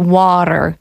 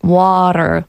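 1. Środkowe T brzmi jak miękkie D. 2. Środkowe T brzmi jak miękkie D.

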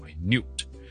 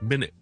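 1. 重音在第二个音节。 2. 重音在第一个音节。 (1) "但重音在个new" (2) "重音在第一个音节"

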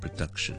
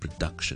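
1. 第一个音节轻，读得弱化。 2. 第一个音节轻，读得弱化。

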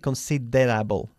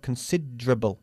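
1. La vocal del medio se pronuncia claramente. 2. La vocal del medio se pierde. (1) "No se dice considerable" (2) "sino considerable. La E se pierde, la de medio"

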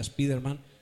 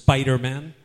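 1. El nombre se dice con pronunciación española. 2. El nombre se dice con pronunciación inglesa. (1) "como dicen en España" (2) "En inglés es Spider-Man"

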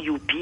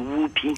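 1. Le nom commence par un son 'y'. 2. Le nom commence par un son 'w'. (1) "on dit souvent Youpi" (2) "mais c'est Whoopi"

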